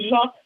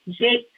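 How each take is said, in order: First: The name is said with a French pronunciation. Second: The name is said like the English word Jake. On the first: This is the original form of the name. "the proper French name" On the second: This is the form she herself preferred. "the simplicity and the dialect and the culture of the time"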